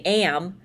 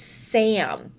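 First: The word is said without its initial s sound. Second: The word is said with its initial s sound. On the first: The speaker calls it wrong. "he doesn't hear his S sound" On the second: The speaker calls it right. "no, it's Sam"

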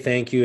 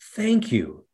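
First: It sounds quick, routine and perfunctory. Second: It sounds deliberate, warm and sincere.

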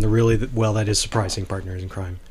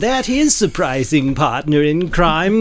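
First: It is said in the speaker's own normal voice. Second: It is said in a put-on impersonation voice.

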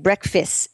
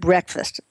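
First: The word is pronounced in a childlike way. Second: The word is pronounced in the standard way. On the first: "he says it like a little kid" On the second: "instead of"

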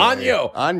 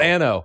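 First: The middle consonant is a palatal ny sound. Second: The middle consonant is a plain n sound. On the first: The speaker calls it right. "Año. Not Anno" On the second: The speaker calls it wrong. "Not Anno"

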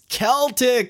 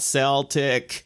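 First: The word begins with a hard K sound. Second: The word begins with a soft S sound. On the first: The speaker calls it right. "It is a hard C" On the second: The speaker calls it wrong. "It is not Celtic"

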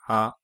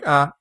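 First: It is said on a low, level pitch. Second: It is said on a high, level pitch. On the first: "the 1 is like ah" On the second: "And then a 5 is like ah"

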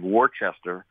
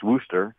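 First: The name is pronounced the way it is spelled. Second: The name is not pronounced the way it is spelled. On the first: The speaker calls it wrong. "it looks to me like Worcester" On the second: The speaker calls it right. "but it's Worcester"

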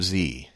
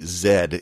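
First: It is said the American way, as zee. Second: It is said the Australian way, as zed.

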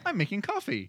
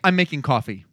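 First: The tone sounds engaged and responsive. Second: The tone sounds flat and disinterested.

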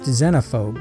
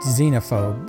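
First: The first syllable has a short vowel. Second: The first syllable has a long vowel. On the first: This is how it is usually said outside America. "in the rest of the English-speaking world ... with a short Z" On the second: This is how it is usually said in America. "in America it's generally pronounced Xenophobe, with the long Z"

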